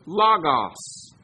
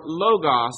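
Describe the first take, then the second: First: "logos" said LAH-gahs, short open first vowel. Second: "logos" said LOH-gos, long o at the start. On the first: Preacher giving the first way to say the Greek word, "logos" as LAH-gahs. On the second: Preacher offering the other reading of the Greek word, "logos" as LOH-gos. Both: Shown as a demonstration. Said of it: "depending on how you pronounce the Greek".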